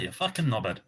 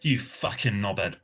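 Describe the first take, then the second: First: It is said in a warm, playful tone. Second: It is said in a harsh, hostile tone. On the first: The word is meant in a friendly, positive way. "That's way different than" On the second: The word is meant as a real insult. "It depends on the tone"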